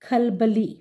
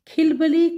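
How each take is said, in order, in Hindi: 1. पहला स्वर a है। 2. पहला स्वर i है। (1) "सही इसका तलफ़ुज़ या इसकी अदायगी" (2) "कोई लफ्ज़ नहीं होता"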